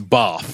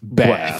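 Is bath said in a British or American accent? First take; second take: British; American. First: The vowel is long and broad, British style. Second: The vowel is short and flat, American style. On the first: The speaker calls it right. "use the Queen's English" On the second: The speaker calls it wrong. "not bath"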